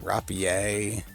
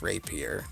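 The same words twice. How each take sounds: First: The word gets a French-style pronunciation. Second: The word gets a plain English pronunciation. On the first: The speaker treats the word as French. The speaker calls it wrong. "Some people will pronounce this word Rapier, like it's because it's French in origin" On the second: The speaker treats the word as English. The speaker calls it right. "but it's still pronounced Rapier"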